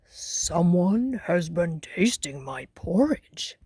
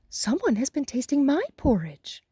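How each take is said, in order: First: It is said in a great big voice. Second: It is said in a middle-sized voice. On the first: A large father character is speaking. "said the father bear in his great big voice" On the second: A middle-sized mother character is speaking. "said the mother bear in her middle-sized voice"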